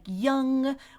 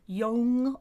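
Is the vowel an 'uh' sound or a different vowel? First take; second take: uh; different vowel. First: The vowel is a short 'uh' sound. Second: The vowel is not the 'uh' sound. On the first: The speaker calls it right. "O U like young" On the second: The speaker calls it wrong. "people mispronouncing as young"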